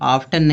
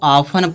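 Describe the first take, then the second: First: A t sound is heard in the middle. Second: No t sound is heard in the middle. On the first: The speaker calls it wrong. "लेकिन ये आफ्टन नहीं है" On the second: The speaker calls it right. "इसको ऑफन पढ़ा जाएगा"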